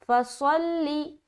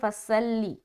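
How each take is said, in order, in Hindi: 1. s की ध्वनि भारी और मोटी है। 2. s की ध्वनि हल्की और पतली है। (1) "ये जो सौद है ये मोटा है" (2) "लोग सौद निकालते हैं लेकिन सीन बन जाता है"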